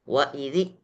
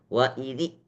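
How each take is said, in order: The two takes are said the same way.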